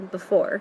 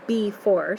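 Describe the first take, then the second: First: The first vowel is a reduced uh sound. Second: The first vowel is a full, clear E. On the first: The speaker calls it right. "most of us say before. ... you're also kind of hearing that uh sound" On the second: The speaker calls it wrong. "you don't say before"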